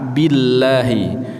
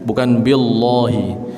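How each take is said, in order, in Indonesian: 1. Vokal setelah dua l adalah 'a' tipis. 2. Vokal setelah dua l adalah 'o' tebal. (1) "Pakai a"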